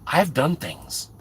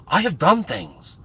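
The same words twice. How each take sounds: First: Said in the usual way. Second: "done" leaned on, falling; stress on done. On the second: Shown as a demonstration. Insisting to viewers that he's done things, stress on "done". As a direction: hit the word "done".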